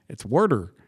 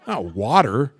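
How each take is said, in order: First: "water" with an r in it, "wor-der"; Wisconsin pronunciation. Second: "water" with exaggerated open "wah"; mock the broad ah in "water"; rejected West Coast pronunciation. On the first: Retold or imitated. Wisconsin man corrects West Coasters, "water" as "worder". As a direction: say "water" as "worder", r-coloured first vowel. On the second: Wisconsin man rejects West Coast way, stretched "wah-ter". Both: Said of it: "They say water".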